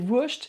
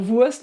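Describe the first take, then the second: First: It is said in a southern German accent. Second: It is said in a standard German accent. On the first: "ça c'est un peu l'accent du sud" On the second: "pas Wurst"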